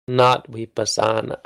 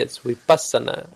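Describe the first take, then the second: First: The stress falls on the next-to-last syllable. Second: The stress falls before the next-to-last syllable. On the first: The speaker calls it wrong. "In English, we always give the penultimate" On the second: The speaker calls it right. "if you want to say vipassana correctly"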